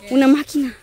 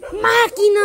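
First: Said in the usual way. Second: Sudden loud, high-pitched shout; startling shout. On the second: Real, not acted. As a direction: yell it out to make them jump. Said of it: "¡Ay, me asustaste!". (grito repentino que asusta)

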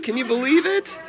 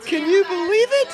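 First: Said in the usual way. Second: Put-on much higher squeaky baby talk. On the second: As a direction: pipe it up high for the baby.

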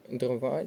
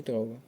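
First: Дрова with stress on the final ва; stress on second syllable. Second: Дрова with дро stressed; stress on first syllable. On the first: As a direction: land on the last vowel of дрова. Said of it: "падає наголос на другий склад". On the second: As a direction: hit the first vowel of дрова, let ва drop. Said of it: "Оберіть правильний варіант наголошення слова". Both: Shown as a demonstration.

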